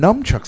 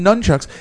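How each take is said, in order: First: The first syllable ends with an m sound. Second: The first syllable ends with an n sound. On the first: "I heard people start calling them numchucks" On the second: "I always called them nunchucks"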